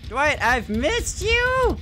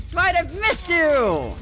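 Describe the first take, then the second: First: Slow, high, menacing sing-song; creepy taunting. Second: Creepy taunting. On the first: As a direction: tease him slowly like a stalker. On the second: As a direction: stretch it out, stalking him. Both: Pretend. Taunting the survivor.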